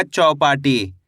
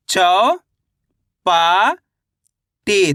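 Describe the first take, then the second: First: Said in the usual way. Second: चौ, पा, टी as separate sounds, long pauses between; syllable by syllable. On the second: Shown as a demonstration. Teacher splitting Chowpatty for learners, syllable by syllable. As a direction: draw out चौ and पा with rising tune, then टी. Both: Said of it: "तो मिलके बन जाएगा".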